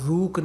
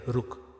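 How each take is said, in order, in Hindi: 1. पहला स्वर लंबा खींचकर बोला गया है। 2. पहला स्वर छोटा बोला गया है। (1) "हम रूक नहीं कहते" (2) "हमने कम समय के लिए उच्चारण किया"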